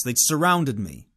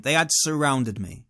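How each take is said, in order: First: Said in the usual way. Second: "had" stressed and spelt out in full. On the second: Real, not acted. Storyteller insisting he is not exaggerating, stress on "had". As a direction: lean firmly on "had". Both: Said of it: "I'm not exaggerating that point".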